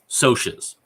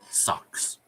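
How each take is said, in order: First: The word has a sh sound, like soshes. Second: The word has a k sound, like socks. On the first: This is how it is said in the movie. "And then they're like" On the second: This is how it reads from the book. "I read it as socks"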